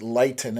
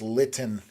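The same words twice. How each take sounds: First: The first syllable does not sound like 'lit'. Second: The first syllable sounds like 'lit'. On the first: The speaker calls it wrong. "I'm pronouncing it Lytton" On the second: The speaker calls it right. "it's Lytton"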